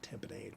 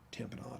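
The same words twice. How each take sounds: First: The last syllable rhymes with 'lemonade'. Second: The last syllable has a French-style 'nahd' sound. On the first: The speaker calls it wrong. "not tamponade?" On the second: The speaker calls it right. "why do we say tamponade"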